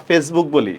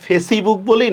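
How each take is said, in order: First: Said in the usual way. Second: Facebook said "fe-si-book", with an extra i after the s; three-syllable Facebook, fe-si-buk; wrong pronunciation. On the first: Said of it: "আমরা Facebook বলি না". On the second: Shown as a demonstration. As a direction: sound the silent e in Facebook as "i": fesibuk. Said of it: "আমরা কি Facebook বলি না Facebook বলি".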